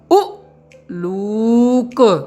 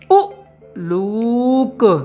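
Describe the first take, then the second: First: The first vowel is quick and separated by a break. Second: The same.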